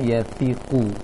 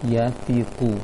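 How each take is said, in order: First: The middle consonant is a lisped th sound. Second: The same.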